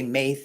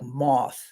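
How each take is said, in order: First: The word is said with an English-style reading. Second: The word sounds close to 'moth'. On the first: This is the speaker's own anglicized way. The speaker calls it wrong. "when I say Maith, it's incorrect" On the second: This is how native Gaelic speakers say it. The speaker calls it right. "They pronounce it something like moth"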